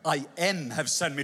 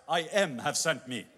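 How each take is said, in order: First: Puzzled repeat, a touch lower; mock Moses. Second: Said through a laugh; laughing mock. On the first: Moses mocking God's grammar, puzzled. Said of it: "that's not even very good grammar". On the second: Moses imagining telling the slaves, laughing. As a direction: chuckle the phrase to the slaves. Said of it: "tell them, Hey, guys".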